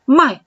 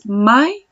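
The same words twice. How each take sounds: First: MAI falling from high; tone for "sell". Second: MAI with rising end; tone for "buy". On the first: Teacher explaining "sell" by tone, MAI falling. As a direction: drop the pitch on MAI. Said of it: "es vender". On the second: Teacher explaining "buy" by tone, MAI rising. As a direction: let MAI swing upward. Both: Shown as a demonstration.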